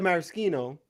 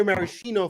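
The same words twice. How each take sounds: First: Maraschino with SK, mara-SKEE-no; sk pronunciation. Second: Maraschino with SH, mara-SHEE-no; sh pronunciation. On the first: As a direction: say maraschino with a hard k. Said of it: "I've always said maraschino". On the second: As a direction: say maraschino with a soft sh. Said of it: "I'll hear maraschino". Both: Shown as a demonstration.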